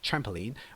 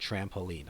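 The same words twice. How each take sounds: First: The stress is on the first syllable. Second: The stress is on the second syllable.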